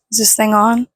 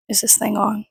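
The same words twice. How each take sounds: First: Louder, rising test call; mic check. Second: Said in the usual way. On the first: Shown as a demonstration.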